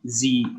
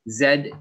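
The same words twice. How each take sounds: First: The letter is said the American way. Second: The letter is said the British way.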